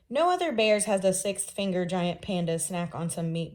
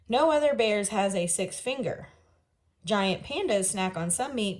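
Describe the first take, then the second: First: It runs on with no pause after finger. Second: There is a clear pause after finger.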